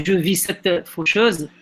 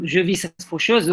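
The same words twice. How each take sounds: First: Slow line with "cette" drawn out before "faucheuse"; pause after cette. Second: Said in the usual way. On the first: Shown as a demonstration. Teacher testing the verse's rhythm, slow break after "cette". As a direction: linger on "cette", then land "faucheuse". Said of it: "il faut chercher une petite pause". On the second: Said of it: "Est-ce qu'on va dire, par exemple".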